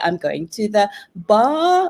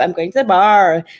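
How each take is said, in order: First: It has a British accent without the r. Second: It has an American accent with the r.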